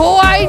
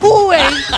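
First: The first vowel sounds like 'o'. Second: The first vowel sounds like 'u'. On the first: The speaker calls it wrong. "ওটা হোয়াই না" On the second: The speaker calls it right. "হুয়াই হুয়াই"

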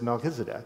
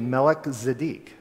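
First: The name is run together as one word. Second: The name is split into two separate words. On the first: "You put the two together and we just pronounce it as Melchizedek" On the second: "but it's actually Melech Zedek"

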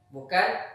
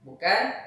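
No difference in how they are said.

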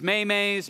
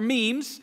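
First: It is said as two syllables, may-may. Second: It is said as one syllable, meems. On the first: The speaker calls it wrong. "mispronouncing memes as maymays" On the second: The speaker calls it right. "they're memes"

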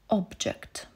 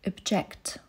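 First: The stress is on the first syllable. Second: The stress is on the second syllable. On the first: It is used as a noun. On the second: It is used as a verb. "Sprzeciwiać się"

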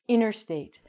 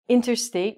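First: The T after the N is dropped. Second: The T after the N is clearly pronounced. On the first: The speaker calls it right. "We say interstate" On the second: The speaker calls it wrong. "We don't say interstate"

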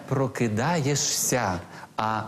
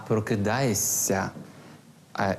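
No difference in how they are said.

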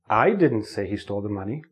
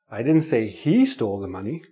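First: The stress falls on the word 'I'. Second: The stress falls on the word 'he'. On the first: Someone else said it, not the speaker. "If I put the stress on the first word, I, it changes the meaning of the sentence" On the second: Someone else stole the money, not him. "Somebody else stole the money"

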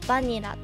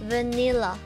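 First: The stress is on the first syllable. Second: The stress is on the second syllable. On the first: The speaker calls it wrong. "アクセントがバーじゃなくて" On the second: The speaker calls it right. "Vanilla に変わってる"

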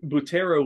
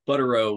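First: The word is pronounced the Italian way. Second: The word is pronounced the American way. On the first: "be the Italian pronunciation" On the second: "would be like the American version"

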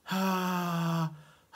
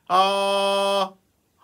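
First: The voice is weak, with little breath behind it. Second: The voice is firm, full and carried by breath. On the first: The speaker calls it wrong. "じゃなくて" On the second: The speaker calls it right. "張りのある声"

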